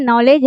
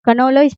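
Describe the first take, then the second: First: नॉलेज starting straight on the N; "nollej", the written K left unsaid; silent K. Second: कनोलेज with an audible "k" before the N; sounded K. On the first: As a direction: say नॉलेज with no "k" at the front. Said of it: "के तो लिखा जाता है but silent". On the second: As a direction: say कनोलेज as "ka-nolej". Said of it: "कनोलेज पढ़ते हैं क्या". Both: Shown as a demonstration.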